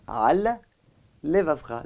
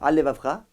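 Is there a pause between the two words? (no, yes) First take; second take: yes; no. First: A short gap separates the two words. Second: The two words run together as one. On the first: The speaker calls it right. "laisser un espace entre les deux" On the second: The speaker calls it wrong. "on a l'impression que c'est un seul mot"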